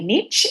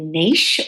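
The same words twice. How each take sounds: First: It is said the non-Australian way, like nitch. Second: It is said the Australian way, like neesh.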